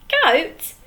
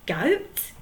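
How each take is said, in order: First: Higher, louder "Goat?" falling hard; indignant. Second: Puzzled. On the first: Handkerchief echoing the troll, outraged disbelief. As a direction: throw "Goat?" back in disbelief. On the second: Handkerchief repeating the troll's word, puzzled. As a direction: say "Goat?" as a puzzled query. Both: Acted. Pirate puzzled, then outraged.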